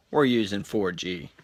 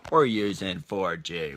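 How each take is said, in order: First: Said in the usual way. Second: Slow, each word stretched; slow, drawn-out take. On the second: Shown as a demonstration. To viewers as the phone leaves Wi-Fi, slow and drawn out. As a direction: drag it out deliberately. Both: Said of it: "repeats the line at two paces".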